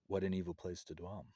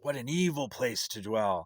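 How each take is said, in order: First: It is said calmly, like quiet wisdom. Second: It is said fiercely, like yelling.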